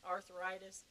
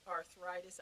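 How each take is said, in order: First: Arthritis said as Arthur itis, like a man's name; Arthur-itis pun. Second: Said in the usual way. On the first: Shown as a demonstration. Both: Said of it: "so many men in the bed with me".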